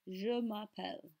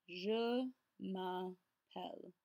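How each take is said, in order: First: Said in the usual way. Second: Je m'appelle word by word, slowly; very slow pronunciation demo with gaps; careful slow model. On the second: Shown as a demonstration. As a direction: draw out and separate each part of Je m'appelle. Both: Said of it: "focus on your pronunciation".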